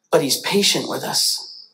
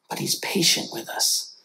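First: Said in the usual way. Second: Soft tender whisper. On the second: Real, not acted. Preacher assuring the church God waits, whisper. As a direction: breathe it gently to the listeners.

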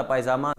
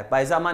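First: पायजामाज closing on a Z sound, lower; corrected form पायजामाज, dropped lower with Z ending; plural final Z. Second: पायजामा ending on an open AA; the rejected form पायजामा, vowel at the end; singular without S. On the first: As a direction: add a Z after the AA in पायजामाज. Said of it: "पायजामाज होता है". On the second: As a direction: leave पायजामा open, no Z sound. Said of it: "पायजामा नहीं होता". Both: Shown as a demonstration.

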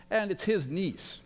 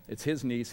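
First: His lifted high and long; stress on his. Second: Said in the usual way. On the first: Shown as a demonstration. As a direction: lean on the word "his" in "it's his niece". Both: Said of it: "that's the connection".

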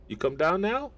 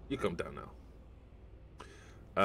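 First: NOW lifted high as a question; rising, higher-pitched question ending on NOW; questioning rise. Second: NOW dropped low and soft; soft, downward statement ending on NOW; falling statement. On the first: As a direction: ask it, sweeping steadily upward to a high NOW. Same words asked, then stated. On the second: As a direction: say it quieter, letting the pitch fall through to NOW. Same words restated after the question. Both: Real, not acted.

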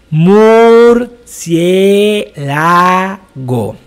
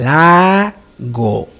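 First: Murciélago stretched very slowly, every vowel opened wide; slow drawn-out diction drill. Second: Murciélago said again slowly for the class to copy; slow repeat. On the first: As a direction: exaggerate each syllable of murciélago, slow and loud. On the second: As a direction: model murciélago once more, a little slower than normal. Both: Shown as a demonstration.

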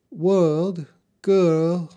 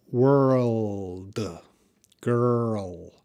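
First: British accent with higher pitch, R dropped; unconvincing British accent, R-less vowels; attempted British accent. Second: Put-on WORLD and GIRL stretched out with a full R; "world", "girl" in elongated American sounds; drawn-out American pronunciation. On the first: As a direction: have a go at a British "world, girl". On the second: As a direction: slowly draw out the R-L in "world", "girl". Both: Shown as a demonstration. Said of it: "I can't do the British accent".

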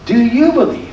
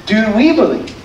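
First: "you" emphasized as the one challenged; stress on you. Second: "we" emphasized as the ones asked; stress on we. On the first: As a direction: lean on "you" in the question. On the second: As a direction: lean on "we" in the question. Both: Shown as a demonstration. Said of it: "The question we want to wrestle with".

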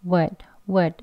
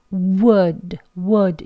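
First: 'would' as loose 'wuhd'; relaxed weak form. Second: WOULD with rounded 'oo', lips tensed; strong form, not weak. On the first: English teacher shows the easy way, relaxed weak form. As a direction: let the lips go slack on a short 'wuhd'. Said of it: "입술에 힘을 빼고 편안하게". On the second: English teacher shows what to avoid, over-rounded form. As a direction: push out a full 'wood'. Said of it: "이렇게 하지 않습니다". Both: Shown as a demonstration.

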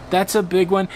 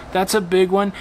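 No difference in how they are said.

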